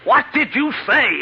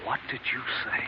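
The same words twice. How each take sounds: First: Much higher, louder and slow, every word dragged out; horrified shout. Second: Breathless, voiceless, barely audible; stunned whisper. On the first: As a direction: scream it in horror. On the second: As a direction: whisper it as the word sinks in. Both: Acted. Hears doctor call him killer.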